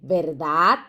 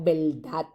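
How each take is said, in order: First: The r is pronounced as a normal r. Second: The r is relaxed so it sounds like l. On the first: "En vez de decir verdad" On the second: "decimos verdad"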